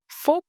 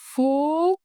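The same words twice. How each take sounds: First: The word is said quickly at normal speed. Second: The word is said slowly and drawn out. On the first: "full speed repetition" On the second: "slow motion combination"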